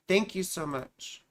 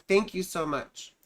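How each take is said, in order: Both takes have the same delivery.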